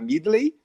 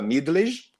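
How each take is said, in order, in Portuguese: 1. O nome termina sem J pronunciado. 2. O nome termina com J pronunciado.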